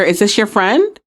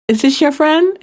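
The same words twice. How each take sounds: First: Said in the usual way. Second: Higher-pitched mimicry of a viral sound bite; TikTok sound imitation. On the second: Podcaster mimicking a TikTok sound for listeners, higher playful imitation. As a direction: lift it up playfully, like quoting a TikTok audio. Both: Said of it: "Like that TikTok sound".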